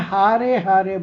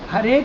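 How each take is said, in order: First: The first vowel is long. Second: The first vowel is short. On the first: The speaker calls it wrong. "हारे हारे बोलते हैं, इसलिए उसका अर्थ को अनर्थ कर देते हैं" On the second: The speaker calls it right. "हरे के जगह में"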